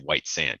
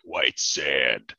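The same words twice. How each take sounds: First: It is said in a plain, ordinary way. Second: It is said in a grand, epic way.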